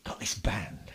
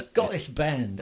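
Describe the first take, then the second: First: Hushed secretive whisper. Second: Said in the usual way. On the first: Retold or imitated. Band leader's secretive invitation, retold.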